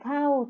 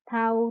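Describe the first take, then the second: First: The word has a falling tone. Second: The word has a mid level tone. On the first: "แล้วก็โท" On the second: "เริ่มที่เสียงสามัญค่ะ"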